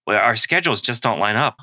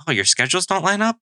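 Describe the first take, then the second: First: Said in the usual way. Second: "your schedules don't line up?" echoed high with a questioning rise; upward inflection. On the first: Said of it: "with an upward inflection". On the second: Shown as a demonstration. Listener repeats partner's last words to draw out more, upward inflection. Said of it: "repeat the last three words with an upward inflection".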